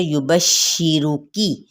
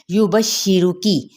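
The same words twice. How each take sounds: First: युबश्शिरुकी very slowly, pressing the doubled sh of श्शि; slow model reading of युबश्शिरुकी with pressed sheen; pressed recitation. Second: युबश्शिरुकी recited slowly with a pressed doubled sh; tajweed demo of युबश्शिरुकी at a measured pace; recitation demo. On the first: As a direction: lean hard on the shadda in युबश्शिरुकी. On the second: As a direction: recite युबश्शिरुकी, joining ba to sheen. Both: Shown as a demonstration. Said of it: "दबाते हुए पढ़ना है इस तरह से".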